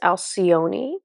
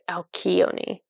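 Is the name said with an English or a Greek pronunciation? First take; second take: English; Greek. First: The name is said with an English pronunciation. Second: The name is said with a Greek pronunciation. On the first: The speaker calls it wrong. "or or no" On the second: The speaker calls it right. "That's the Greek way"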